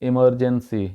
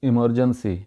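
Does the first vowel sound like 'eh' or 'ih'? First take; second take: ih; ih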